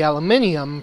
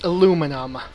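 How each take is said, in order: First: The word has five syllables. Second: The word has four syllables. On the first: This is the British Commonwealth usage. The speaker calls it wrong. "people from the U K" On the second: This is the North American usage. The speaker calls it right. "the correct pronunciation is aluminum"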